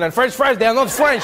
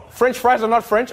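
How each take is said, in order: First: Lightly impassioned mock French protest; imitated passion. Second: Said in the usual way. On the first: Comedian imitating a French audience member correcting him, with mock passion. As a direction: echo his indignant insistence, mildly hammed-up. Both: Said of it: "I like how you said that with passion".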